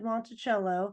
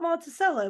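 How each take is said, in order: First: The name is said the standard, non-local way. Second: The name is said the local way. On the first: "spelled just like Monticello" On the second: "call it Monticello because that's what the locals call it"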